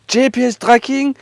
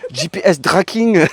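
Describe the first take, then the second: First: It is read with a French accent. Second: It is read with an English accent.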